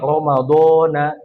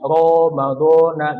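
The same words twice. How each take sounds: First: The first syllable is drawn out long. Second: The first syllable is kept short. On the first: "dibaca ro-nya panjang jadinya bukan Ramadan" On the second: "biasa ada yang begitu ya"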